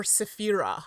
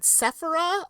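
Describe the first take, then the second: First: Sephira with a long, stressed middle; stress on middle syllable. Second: Sephira with the first syllable stressed. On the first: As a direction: say se-PHI-ra in Sephira, leaning on PHI. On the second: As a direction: say SEPH-ira in Sephira, punching the start. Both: Shown as a demonstration. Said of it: "Where would you put the emphasis".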